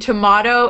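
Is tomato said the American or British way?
British. It is said with a British pronunciation. "tomato in British English"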